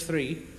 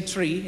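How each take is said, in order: First: Said in the usual way. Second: "tree" with a hard T for TH; "three" said as "tree". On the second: Shown as a demonstration. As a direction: Newfie "tree", no TH sound. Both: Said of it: "We say tree instead of three".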